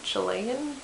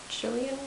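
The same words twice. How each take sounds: First: Chilean with stressed LAY, "chuh-LAY-un"; unsure pronunciation. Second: Chilean as "CHILL-ee-un", softer, questioning; alternative pronunciation. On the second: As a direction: offer Chilean with a LEE sound, rising. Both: Shown as a demonstration. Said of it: "I think you pronounce it".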